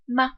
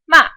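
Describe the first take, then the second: First: The syllable is light and unstressed. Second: The pitch falls quickly. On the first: "the fifth tone is unstressed and neutral" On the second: "The fourth tone quickly goes down"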